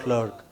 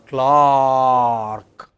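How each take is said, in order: First: The vowel is short and clipped. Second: The vowel is long and open. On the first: The speaker calls it wrong. "It's not clerk" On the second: The speaker calls it right. "but make it long"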